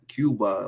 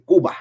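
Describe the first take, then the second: First: The first syllable sounds like 'cube'. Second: The first syllable sounds like 'coo'. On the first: "like a cube" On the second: "They say Cuba"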